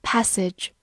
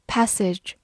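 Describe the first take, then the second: No difference in how they are said.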